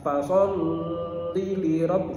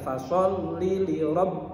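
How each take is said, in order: First: The doubled L is held and drawn out longer. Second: The doubled L is pressed with a short stress. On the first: The speaker calls it wrong. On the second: The speaker calls it right. "bukan ditahan tapi ditekan"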